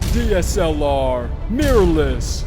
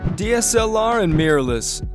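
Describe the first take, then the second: First: It is said with over-the-top intensity. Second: It is said in a calmer, toned-down way.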